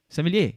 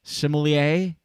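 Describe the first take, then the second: First: Sommelier clipped French style, sem-lay; quick French Sommelier, two syllables. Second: Sommelier said the English way, sim-uh-lee-ay; anglicised Sommelier, all four syllables; English accent. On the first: Host trying the French way, clipped. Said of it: "when French". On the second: Host showing his English take on a French word, anglicised. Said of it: "say French words with an English accent". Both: Shown as a demonstration.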